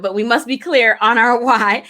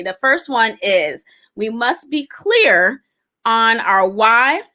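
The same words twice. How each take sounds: First: Said in the usual way. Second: Slow, with the pitch rising on "why" as if asking; ending "clear on our why" on an unsure upward lilt, slowly; said like a question. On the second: Shown as a demonstration. Teaching the five keys but it comes out like a question. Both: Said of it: "I said that like a question".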